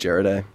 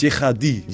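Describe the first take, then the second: First: The name is said with an English-style pronunciation. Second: The name is said with a French pronunciation. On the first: This is the pronunciation the family uses. "the Anglophone way" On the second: This is the accurate original pronunciation. "the French accurate way"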